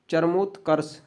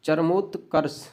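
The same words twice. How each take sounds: The two takes are said the same way.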